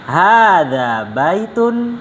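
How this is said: It has the intonation of a question. It asks the listener something. The speaker calls it wrong. "Jangan hadza baitun. Nah, itu pertanyaan"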